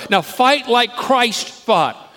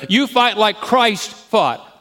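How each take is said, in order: First: Now fight like Christ fought, dragged out, fight punched at the peak; slow, punched command. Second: You punched loud at the start, the rest slowed; stress on You. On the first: Preacher commanding the congregation, slow and loud. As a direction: fight hit hard, every word slow and loud. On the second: Preacher pointing at each listener, slow and loud. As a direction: lean hard on You, then drag the rest out. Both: Shown as a demonstration.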